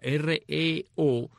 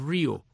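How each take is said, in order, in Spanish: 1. El nombre se deletrea letra por letra. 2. El nombre se dice como una sola palabra. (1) "la banda de rock and roll dice REO, o sea, R-E-O, deletrea" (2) "mientras que el camión se pronunciaba Rio"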